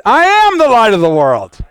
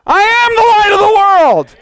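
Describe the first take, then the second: First: Firm, slightly raised congregational declaration; led declaration. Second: High, loud full-force proclamation; convinced shout. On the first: Preacher leading the saints in repeating, firm declaration. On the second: Preacher showing unconvinced saints how, impassioned shout. Shows the convinced version after mock doubt. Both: Shown as a demonstration.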